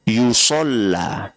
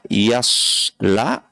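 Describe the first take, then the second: First: The word begins with yu and has a doubled l. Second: The word begins with ya and has a plain l. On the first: Being burned many times. "kiroah yang kedua adalah yusolla" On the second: Being burned once. "Kiroah yang pertama adalah yasla"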